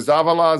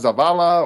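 First: The stress is on the first syllable. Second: The stress is on the second syllable.

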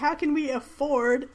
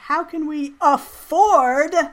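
First: The word afford is said plainly, without emphasis. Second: The word afford is said with strong emphasis.

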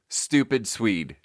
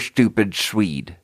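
First: The S sounds are very sharp and hissy. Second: The S sounds turn into a TH sound. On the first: "Super sharp" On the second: "it turns into a lisp"

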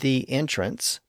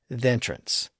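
First: The is said as a separate full syllable. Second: The blends straight into the following vowel. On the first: "instead of the entrance" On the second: "blended in with the word that followed"

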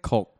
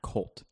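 First: The vowel sounds like 'uh'. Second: The vowel sounds like 'oh'. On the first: The speaker calls it right. "You got to say it with an U" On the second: The speaker calls it wrong. "you're saying it with an O"

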